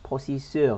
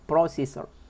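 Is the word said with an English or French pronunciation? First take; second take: French; English. First: It is said with a French pronunciation. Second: It is said with an English pronunciation. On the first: "هنا في الفرنسية ... بروسيسور تنطق" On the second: "وبالإنجليزية تنطق بروسيسور، يعني نضغط قليلا على الإس والآر"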